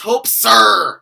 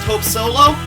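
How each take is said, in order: First: The surname's 'olo' part is squashed into 'er'. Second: The surname is said with a plain 'oh-loh' sound. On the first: The speaker calls it right. "words with Ola are pronounced like er" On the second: The speaker calls it wrong. "you thought it was pronounced Hope Solo?"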